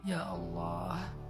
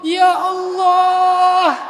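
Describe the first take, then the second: First: It sounds calm and patient. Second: It sounds strained and impatient.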